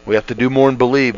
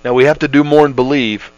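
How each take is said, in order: First: Faster restatement, more punched; quicker repeat. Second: Said in the usual way. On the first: Shown as a demonstration. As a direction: rush the repeat with urgency.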